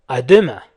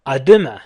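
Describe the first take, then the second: No difference in how they are said.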